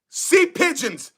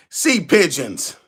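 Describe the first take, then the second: First: Drawn-out teasing nickname; slow mocking taunt. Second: Much lower, slow, gloating nickname; deep mocking taunt. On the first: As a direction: savour the insult slowly. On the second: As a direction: drop the voice low and gloat. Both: Real, not acted. Taunting rival fans with nicknames.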